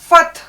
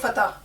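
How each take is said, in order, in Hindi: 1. यह t के बाद बिना स्वर के बोला जाता है। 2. यह t के बाद स्वर के साथ बोला जाता है। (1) "ये सही लफ्ज है ये वाला" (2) "हम इसको हमेशा जबर के साथ ऐसे बोल देते हैं"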